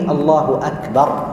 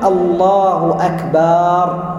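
First: The vowel after the b is short. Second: The vowel after the b is lengthened. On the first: The speaker calls it right. "لا بد من قوله الله أكبر" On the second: The speaker calls it wrong. "فلا يقول الله أكبر، لأن مد الباء خطأ ولحن"

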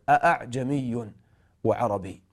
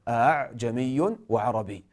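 First: The second glottal stop is fully pronounced. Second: The second glottal stop is softened and eased. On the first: "بتحقيق الهمزة" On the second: "يسهل الهمزة هنا أعجمي هكذا"

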